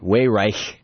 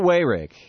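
First: The name has its original ancestral pronunciation. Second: The name has a plain anglicized pronunciation.

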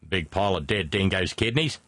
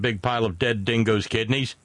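First: It is said in an Australian accent. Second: It is said in the speaker's normal accent.

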